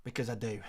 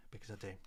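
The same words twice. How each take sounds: First: Said in the usual way. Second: Much softer, low murmur; hushed echo. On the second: Real, not acted. Streamer assuring viewers he treats them, in a hushed echo. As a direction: drop it right down to an aside. Soft echo of his own words.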